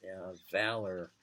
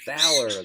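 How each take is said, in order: First: "valor" said softer, low and falling; savouring valor. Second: "Valor" called out louder, falling firmly; proclaiming valor. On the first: Relishing a wonderful word, "valor" murmured softly. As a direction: let "valor" melt away softly. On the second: Savouring a favourite word, "Valor" said loud and proud. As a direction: declare "Valor" like a banner word. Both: Shown as a demonstration. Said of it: "that's a wonderful word".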